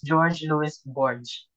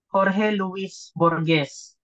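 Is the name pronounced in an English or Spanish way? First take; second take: English; Spanish. First: The name is said with English pronunciation. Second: The name is said with Spanish pronunciation. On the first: This is an acceptable anglicized reading. "since we're using an English um, American, so we can read this as" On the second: This is the name's original pronunciation. "his name is should be pronounced as"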